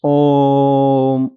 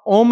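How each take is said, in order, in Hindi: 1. स्वर लंबे समय तक खींचा जाता है। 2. स्वर छोटा और सादा है। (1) "ओम ऐसे बोलते थे" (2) "आप ओम नहीं बोलते थे"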